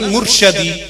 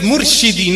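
First: The vowel after 'rsh' is an 'a' sound. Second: The vowel after 'rsh' is an 'i' sound. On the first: The Messenger is the one being guided. The speaker calls it wrong. "not Murshadi" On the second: The Messenger is the one who guides. The speaker calls it right. "the word is Murshidi"

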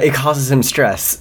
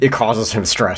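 First: It is read in a put-on character voice. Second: It is read in the reader's natural voice.

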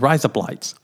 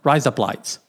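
The two takes are said the same way.

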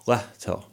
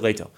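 First: The name is said with a Finnish pronunciation. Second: The name is said with an American pronunciation. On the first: The speaker calls it right. "in Finnish, it's pronounced Lehto" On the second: The speaker calls it wrong. "that's the American pronunciation of my last name"

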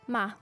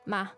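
First: The particle is said with a slightly falling pitch. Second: The particle is said with a slightly falling pitch.

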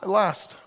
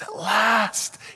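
First: It is said in a flat, unexcited tone. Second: It is said in an excited, energetic tone.

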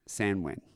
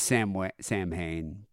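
First: It is said like 'Sanwin', without an h sound. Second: It is said like 'Sam Hain', with an h sound. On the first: This is the original pronunciation. "I'm gonna pronounce it the real way" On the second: This is the common pronunciation. "Everyone says Sam Hain"

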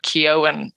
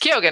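First: The name is said without any G sound. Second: The name is said with a clear G sound. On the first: "tend to drop the G and say like Kyoen" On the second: "it's Kyogen"

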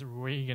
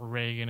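First: The name is said with an Irish pronunciation. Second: The name is said with an American pronunciation. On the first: "you went straight to the Irish pronunciation of Reagan" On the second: "or Reagan if you're an American"

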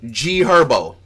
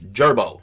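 First: The two words are said separately and clearly. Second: The two words are said fast, run together.

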